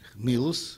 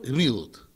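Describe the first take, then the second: First: The word ends with an s sound. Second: The word ends with a t sound. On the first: "на ашкеназском диалекте, потому что Т... как читает ашкеназ? С" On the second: "А я говорю гмилут. Какая разница? Ашкеназская и сефардская"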